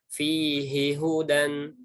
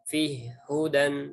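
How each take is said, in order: First: Both h sounds are pronounced separately and clearly. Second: The two h sounds merge into one. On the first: This follows the Hafs reading. "baca yang ini fihi hudan" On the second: This follows the As-Susi reading. "bukan fihi hudan"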